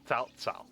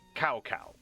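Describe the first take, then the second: First: Each syllable begins with a ts sound. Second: Each syllable begins with a k sound. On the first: The speaker calls it right. "That's how you pronounce it" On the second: The speaker calls it wrong. "which is just it's just extremely wrong"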